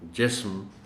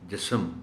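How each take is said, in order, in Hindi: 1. "s" बिना किसी स्वर के "m" से जुड़ता है। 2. "s" और "m" के बीच एक छोटा स्वर जोड़ा जाता है। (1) "जिनके दरमियानी हर्फ पर जज़्म है" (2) "गलत पढ़ते हुए हम इस लफ्ज़ को भी जिस्म पढ़ जाते हैं"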